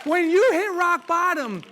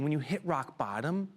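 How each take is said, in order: First: Loud, high and slow; shouted rebuttal. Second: Said in the usual way. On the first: Real, not acted. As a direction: hammer each word home.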